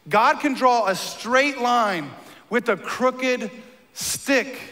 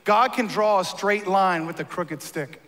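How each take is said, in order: First: "God can draw a straight line with a crooked stick" said slowly, each word weighted; slow emphatic repeat. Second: Said in the usual way. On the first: Shown as a demonstration. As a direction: let it sink in, word by word. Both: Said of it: "He said it like this".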